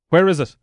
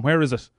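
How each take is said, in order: First: Louder, insistent repeat. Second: Said in the usual way. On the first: Real, not acted. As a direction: demand it again, pushier.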